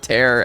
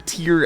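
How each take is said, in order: First: The vowel sounds like the one in 'air'. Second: The vowel sounds like the one in 'ear'. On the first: It means ripping. The speaker calls it wrong. "not tear as in ripping paper" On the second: It means crying. The speaker calls it right. "tear as in crying"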